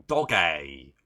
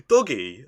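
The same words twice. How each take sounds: First: "doggy" with its final vowel stretched to AY; mock British pronunciation. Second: Said in the usual way. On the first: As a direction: say "doggy" as DOG-AY, mocking the British. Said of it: "British people say doggy".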